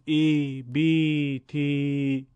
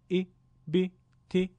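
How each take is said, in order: First: The vowels are drawn out and lengthened. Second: The vowels are short and clipped. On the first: The speaker calls it wrong. "با کشش اضافه بخونید غلط هست" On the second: The speaker calls it right. "کوتاه بودن و بدون کشش اضافه کسره رو فراموش نکنید"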